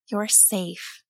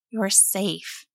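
First: Softer, soothing You're safe; soft reassurance. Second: Softer, soothing repeat; soft reassurance. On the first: Mother comforts her scared son, soft and soothing. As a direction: hush him gently. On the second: Mother holds her crying son, softly reassuring. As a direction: murmur it again to calm him. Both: A narrator's reading. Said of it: "she told him".

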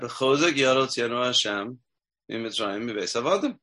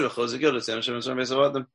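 First: Slow, deliberate chant of the verse; slow recitation. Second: Fast run-through of the verse; quick recitation. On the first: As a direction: recite it slowly, savoring each word. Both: Shown as a demonstration. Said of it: "We just said".

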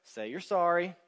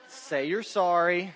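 First: Said in the usual way. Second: Louder, slower, pressing each word; insistent repeat. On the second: Retold or imitated. Counselor to struggling couple, louder insistent repeat. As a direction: lean on it hard the second time. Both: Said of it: "and saying".

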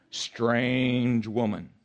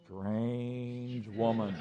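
First: Very slow, drawn-out echo; the warning repeated slowly; a hint of the Lord's voice. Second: Very slow, soft, drawn-out; the Lord's voice warning the pastor, drawn-out and soft. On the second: Retold or imitated. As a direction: stretch it out like a divine warning. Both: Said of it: "hear the voice of the Lord saying".

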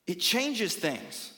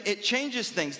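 First: It changes things, slowed right down, weight on changes; slow emphatic stress. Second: Said in the usual way. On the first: Acted. Pastor driving the point home to the congregation, slow and emphatic. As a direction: let each word land, leaning on changes.

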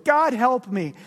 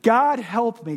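First: Louder plea to God; a ghost begging God; anguished cry. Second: Louder repeated plea to God; a ghost begging God; anguished cry. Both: Acted. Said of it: "cries the ghost".

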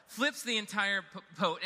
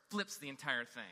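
First: "Flips" punched, higher and louder; exclaiming "Flips the entire p-, boat"; emphatic repeat. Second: Said in the usual way. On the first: Retold or imitated. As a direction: restate it big for the laugh.

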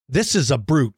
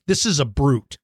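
First: "this" hit first and strongest; stress on THIS. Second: "is" pushed a little, rest falls away; stress on IS. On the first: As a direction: punch the word "this". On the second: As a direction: lean on the word "is". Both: Shown as a demonstration.

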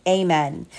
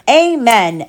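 First: Solemn amen. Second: Said in the usual way. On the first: Acted. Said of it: "said the prayer". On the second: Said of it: "everyone said".

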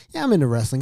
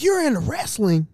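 First: Said in the usual way. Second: High, loud delighted disbelief; excited. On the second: Retold or imitated. Girlfriend's dad finds out guest likes wrestling, excited. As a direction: blurt it out in high-pitched excitement. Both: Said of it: "he got excited".

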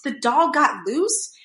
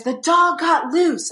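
First: Slow, higher incredulous question; retold disbelief. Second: Slow, high mock-panicked cry; imitated hysterical panic. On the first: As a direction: echo it in stunned disbelief, rising at the end. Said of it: "And I was like". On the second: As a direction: imitate a frantic announcement, stretched and pitched up. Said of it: "he sounded hysterical".

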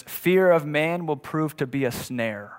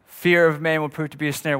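First: Slow, deliberate reading of the verse; slow, weighty quotation of scripture. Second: Said in the usual way. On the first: Shown as a demonstration. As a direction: lay out each word of the proverb slowly. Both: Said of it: "says it like this".

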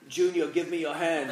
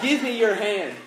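First: Badly faked Scottish accent; terrible Scottish accent. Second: Said in the usual way. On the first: Father calling to his dangling son, bad Scottish accent. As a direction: have a poor go at a Scottish accent. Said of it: "A terrible Scottish accent". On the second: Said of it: "I really admit that".

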